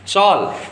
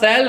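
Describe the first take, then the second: First: The vowel sounds like the one in 'hall'. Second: The vowel sounds like the one in 'pal'. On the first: "Google भी करोगे तो शॉल होता है" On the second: "तो मैं भी शैल शैल बोल देता हूँ"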